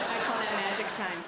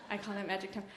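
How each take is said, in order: First: Said in the usual way. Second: Hushed afterthought; soft repeat. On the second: Shown as a demonstration. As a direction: drop the volume on I call that magic time.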